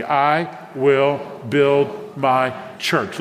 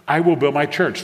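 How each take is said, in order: First: Very slow, separated words for the congregation to follow; drawn out, deliberate group recitation. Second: Said in the usual way. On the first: Shown as a demonstration. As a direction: lead them in saying it aloud, one word at a time. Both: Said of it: "Say that out loud with me".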